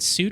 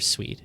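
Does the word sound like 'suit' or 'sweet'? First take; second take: suit; sweet. First: The word sounds like 'suit', with an oo vowel. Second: The word sounds like 'sweet', with a w and ee. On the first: The speaker calls it wrong. "Is it suit or sweet?" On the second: The speaker calls it right. "It's totally sweet"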